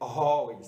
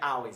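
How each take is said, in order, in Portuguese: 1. A primeira vogal soa como um 'oh' arredondado. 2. A primeira vogal soa como um 'ah' aberto. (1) "é always" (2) "Não é always"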